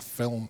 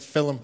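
First: It is said the standard way, one syllable. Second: It is said the Scouse way, like 'fillum'.

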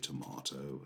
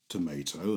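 First: It is said with a British accent. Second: It is said with an American accent.

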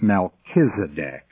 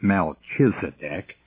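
First: The middle consonant is a 'k' sound. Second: The middle consonant is a 'ch' sound. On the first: The speaker calls it right. "the CH sound is pronounced as a K, so it's Melchizedek" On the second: The speaker calls it wrong. "It is not Melchizedek"

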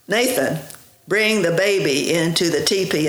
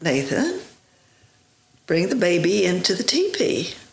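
First: It is said in a commanding Marine voice. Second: It is said in an ordinary voice.

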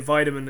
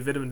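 First: It is said with an American accent. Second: It is said with an Irish accent.

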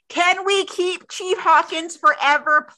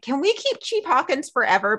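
First: It is said loudly with extra force. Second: It is said at normal speaking volume.

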